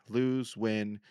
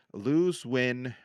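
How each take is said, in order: Both takes have the same delivery.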